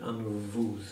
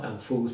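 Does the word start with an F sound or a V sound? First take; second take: V sound; F sound. First: The word begins with a V sound. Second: The word begins with an F sound. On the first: The speaker calls it right. "but anvuz" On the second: The speaker calls it wrong. "So it's not anfuz"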